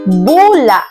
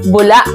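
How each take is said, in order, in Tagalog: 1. Binibigkas ito nang marahan, walang biglang matalim na pagtatapos. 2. Binibigkas ito nang mabilis na may pigil sa dulo. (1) "Ito ay kabilang sa diing malumi" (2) "may diing mabilis at may impit na tunog sa bandang dulong bahagi"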